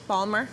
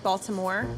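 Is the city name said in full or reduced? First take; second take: reduced; full. First: The name is said quickly, squeezed to two syllables. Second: All syllables of the name are pronounced. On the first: "saying it quickly" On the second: "something like Baltimore"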